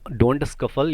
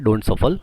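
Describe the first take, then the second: First: A k sound follows the s. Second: No k sound follows the s. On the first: The speaker calls it wrong. "मेरी गलती है जो मैं सी को लगा के बोल रहा हूँ" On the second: The speaker calls it right. "सी इसमें साइलेंट होगा"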